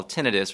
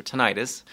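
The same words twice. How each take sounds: First: Tinnitus said TIN-ih-tus; first-syllable stress pronunciation. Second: Tinnitus said tih-NIGH-tus; long-i pronunciation. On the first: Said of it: "how do you pronounce that?". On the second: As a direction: stress the middle of tinnitus, rhyming it with night. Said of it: "one is a British pronunciation". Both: Shown as a demonstration.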